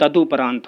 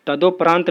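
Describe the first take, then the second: First: तदुपरांत with a u, 'ta-du-praant'; corrected form. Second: तदोपरांत with an o, 'ta-do-praant'; wrong form. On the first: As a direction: say du in the middle of तदुपरांत. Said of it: "होता है". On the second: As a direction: say do in the middle of तदोपरांत. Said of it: "नहीं होता है". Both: Shown as a demonstration.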